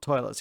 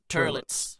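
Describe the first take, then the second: First: The first syllable has the vowel of 'toy'. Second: The first syllable has the vowel of 'tur'. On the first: The speaker calls it wrong. "it's not toilets" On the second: The speaker calls it right. "it's turlets"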